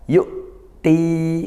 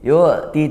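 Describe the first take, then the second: First: The voice stops sharply on the middle sound. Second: The middle sound flows on without a stop. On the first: The speaker calls it right. "tapi kuatkan. Yuk ti karena dia syiddah" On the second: The speaker calls it wrong. "Jangan yu'ti yu'ti"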